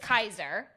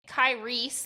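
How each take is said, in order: First: The name ends in an 'er' sound. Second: The name ends in an 'ee' sound. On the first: The speaker calls it right. "Her name is Kaiser" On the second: The speaker calls it wrong. "we were pronouncing it Kyrie"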